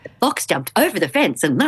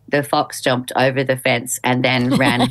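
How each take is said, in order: First: It is read with lively, varied expression. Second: It is read in a flat, dull way.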